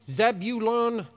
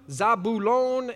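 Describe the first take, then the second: First: The name is said the usual American way. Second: The name is said in a less familiar way. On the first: "how we good Americans say" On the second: "that's how they're pronounced"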